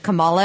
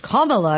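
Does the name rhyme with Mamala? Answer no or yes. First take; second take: no; yes. First: The name is said not rhyming with Mamala. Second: The name is said rhyming with Mamala. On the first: The speaker calls it wrong. "I called her Kamala and people yelled at me" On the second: The speaker calls it right. "Apparently rhymes with Mamala"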